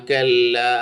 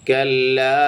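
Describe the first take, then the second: The two takes are said the same way.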